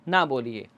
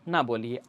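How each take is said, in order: No difference in how they are said.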